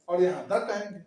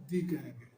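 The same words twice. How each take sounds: First: द said short and clipped. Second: दी said low and much softer; soft drawn दी; long "thee". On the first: Teacher contrasting the short the for boy. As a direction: snap out a short द. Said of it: "boy के पहले आने वाला टीएचई को". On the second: Teacher contrasting the long the for elephant. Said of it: "elephant से पहले आने वाला टीएचई को". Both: Shown as a demonstration.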